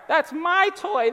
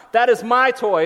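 First: Put-on high, drawn-out childish whine; whining child. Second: Loud, emphatic mock-stern dad; old-school parent. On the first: Dad imitating his kids over a toy, whining. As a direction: whine possessively like a little kid. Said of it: "when they whine". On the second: Dad reclaiming the toy from kids, mock stern. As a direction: stake the claim word by word. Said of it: "I get old school on 'em".

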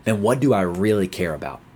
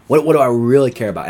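First: Said in the usual way. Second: Louder, higher repeat of what do I really care about; urgent self-questioning, raised and louder; pleading emphasis. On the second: Shown as a demonstration. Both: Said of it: "ask the Lord to analyze our heart and say".

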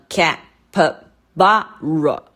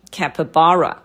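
First: Capybara split ca, py, BA, ra; syllable by syllable. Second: Capybara as one word, BA stressed; joined-up model of capybara, stressed BA; stress on third syllable. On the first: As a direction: count out capybara in four slow beats. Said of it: "它一共有几个音节呢". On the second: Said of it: "最高音的音节是在ba". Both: Shown as a demonstration.

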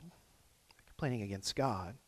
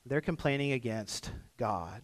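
First: Softer and slower, letting it sink in; quiet repeat. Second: Said in the usual way. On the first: Shown as a demonstration.

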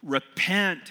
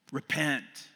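First: A high, loud thundered command; thundering. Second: Yelling. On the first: Prophet thundering at the congregation, high and loud. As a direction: thunder it down at the whole crowd. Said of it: "he thunders to all of us". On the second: Prophet yelling straight at the listeners, firmer than shouting. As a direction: drive it home again, less booming. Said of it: "yelling at us". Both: Acted.

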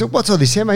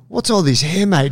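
First: Mock croaky voice, higher; imitating a croaky gym coach. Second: Lightly voiced physio; a hint of the gym guy; quoting the physio. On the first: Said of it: "He's got a croaky voice". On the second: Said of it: "he's like".

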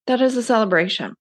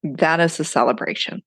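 First: Excited. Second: Said in the usual way. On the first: Shown as a demonstration. Repeats phrase for emphasis.

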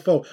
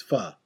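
First: Pho said as "foe", long o; the English reading of pho, rhyming with toe; wrong English pho. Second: Pho said as "fuh", short vowel, no "oh"; correct pho. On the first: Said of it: "it looks like pho, pho in English". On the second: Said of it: "No, it's pho". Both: Shown as a demonstration.

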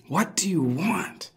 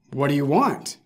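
First: Soft unvoiced whisper, slower. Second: Said in the usual way. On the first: Shown as a demonstration. Pastor repeating Jesus's question to the congregation, whispered. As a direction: breathe the question, drawn out.

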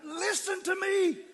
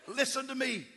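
First: Slow, high, loud scream of each word; desperate drawn-out yell. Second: Higher, louder call to a panicking man; shouting to be heard; yelling. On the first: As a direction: scream it so he finally hears. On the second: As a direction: raise the voice to get through to him. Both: Retold or imitated. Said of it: "I had to scream it about seven times".

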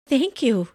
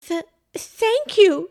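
First: Understated thanks, starting higher then falling; mildly dazed. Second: High, slow, stammered thanks; flustered stutter. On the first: Pam takes the fish from Santa, mildly dazed. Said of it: "still in a daze". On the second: Pam thanks the man who caught her, flustered stutter. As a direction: trip on the first sound, flustered. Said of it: "she stuttered, both cold and so flustered". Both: A narrator's reading.

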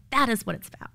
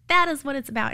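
First: Said in the usual way. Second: "That is what it's about" pushed louder, stress on That; louder second take, stress on That; emphatic repeat. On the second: Retold or imitated. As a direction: drive the repeat home with a firmer That. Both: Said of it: "And I was like".

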